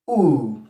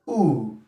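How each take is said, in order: First: The initial H sound is dropped. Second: The initial H sound is dropped.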